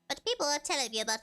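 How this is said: It is read in an exaggerated, put-on voice.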